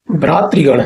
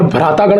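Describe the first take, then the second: First: भ्रातृगण with tri, bhraatri-gan; correct form. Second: भ्रातागण with long aa, bhraataa-gan; wrong form. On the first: Teacher correcting students, भ्रातृगण with tri in the middle. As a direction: sound a clear tri in भ्रातृगण. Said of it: "होता है". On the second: Teacher citing the mistake, भ्रातागण with a long taa. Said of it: "नहीं होता है". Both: Shown as a demonstration.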